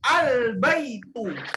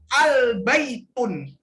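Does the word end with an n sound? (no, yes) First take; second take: no; yes. First: The word ends on a vowel, without n. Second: The word ends with an added n sound. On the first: The speaker calls it right. "maka kita bacanya al-baitu" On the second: The speaker calls it wrong. "Haram hukumnya dibaca al-baitun"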